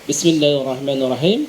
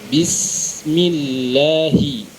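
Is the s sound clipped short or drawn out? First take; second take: clipped short; drawn out. First: The s sound is clipped short and rushed. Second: The s sound is drawn out with flowing breath. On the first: The speaker calls it wrong. "kalau kita membaca cepat" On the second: The speaker calls it right. "Harusnya dialirkan secara sempurna terlebih dahulu"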